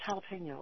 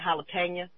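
First: It is said in a standard accent. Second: It is said with a country twang. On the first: "people look at me like, what? It's jalapeno" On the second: "I have a slight twang, and I know every so often it comes out"

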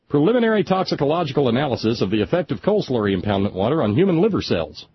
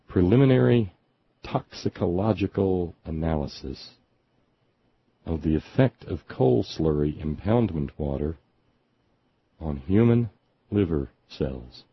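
First: It is said at normal speed. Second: It is said slowly.

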